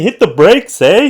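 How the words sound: It has an exaggerated stereotypical Canadian accent.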